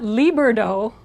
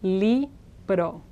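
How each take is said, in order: First: The r sounds like an English r. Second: The r is a quick single tap. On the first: The speaker calls it wrong. "there's no English R in it" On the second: The speaker calls it right. "It's just libro"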